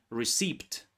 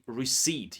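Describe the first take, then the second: First: Receipt said with a sounded p, ree-seept; wrong receipt. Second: Receipt said ree-seet, p silent; correct receipt. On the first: Teacher imitates students' mistake, mild demo. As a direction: show the common error, receipt with the p said. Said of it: "commonly mispronounced word". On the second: Teacher corrects students, plain and clear. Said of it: "So P is silent here". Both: Shown as a demonstration.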